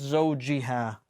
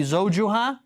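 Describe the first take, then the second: First: زوجها with "ji" for the middle syllable; i-ending pronunciation. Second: زوجها with a stressed "ju" for the middle syllable; u-ending pronunciation. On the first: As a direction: say زوجها as "zawji-ha", falling at the end. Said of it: "but because of the ma'a". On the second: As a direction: say زوجها as "zawju-ha", rising at the end. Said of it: "normally it would be". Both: Shown as a demonstration.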